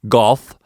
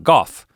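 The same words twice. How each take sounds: First: The word is said with the L sound. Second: The word is said without the L sound. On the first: "I could say golf, golf, golf, golf, but it's unnecessary" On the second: "we don't say the L. ... it's a dialect. It's the way that we talk"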